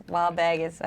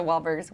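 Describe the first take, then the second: First: "Wahlburgers" with dropped r's, Boston style; bad Boston accent. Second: Said in the usual way. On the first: Shown as a demonstration. Host fumbling the restaurant name, "Wahlburgers" in badly faked Boston accent. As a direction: attempt Boston vowels on "Wahlburgers". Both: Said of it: "I cannot do a Boston accent".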